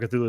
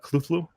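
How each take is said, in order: First: The name is said plainly, without guttural sounds. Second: The name is said with harsh guttural sounds. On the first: The speaker calls it wrong. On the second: The speaker calls it right.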